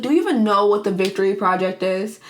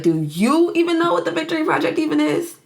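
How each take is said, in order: First: Lightly acted plea, YOU briefly lifted; pleading challenge. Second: Mocking retort, pitched high from YOU on; shooting back. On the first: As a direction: imitate a mild, imploring question. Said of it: "trying to just plead to Jack". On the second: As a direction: throw the question back, leaning on "you". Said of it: "Frank shoots back at her".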